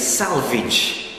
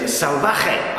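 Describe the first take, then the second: First: The surname is said with an English pronunciation. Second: The surname is said with a Spanish pronunciation.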